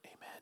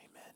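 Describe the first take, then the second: No difference in how they are said.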